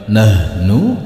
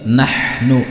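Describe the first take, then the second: First: The h sound is light and unclear. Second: The h sound is clear and clean. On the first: The speaker calls it wrong. "bukan nahnu" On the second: The speaker calls it right. "tetapi nahnu ... Huruf ha dibaca jelas, bersih"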